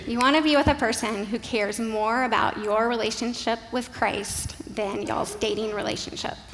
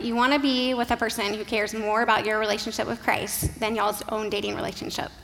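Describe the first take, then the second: First: It is said slowly. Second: It is said fast.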